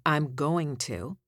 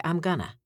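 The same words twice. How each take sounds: First: Said in the usual way. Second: I'm gonna with going to run together as gunna; relaxed gonna. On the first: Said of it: "Instead of saying". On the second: Shown as a demonstration. Coach showing radio folk casual diction. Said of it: "you'd say".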